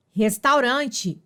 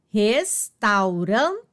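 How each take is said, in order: First: Said in the usual way. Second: Restaurante drawn out slowly, syllable by syllable. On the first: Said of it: "teacher models the word". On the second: Shown as a demonstration. Teacher to pupils: restaurante stretched out slowly, syllable by syllable. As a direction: spell out restaurante slowly for the class. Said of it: "teacher repeats word slowly".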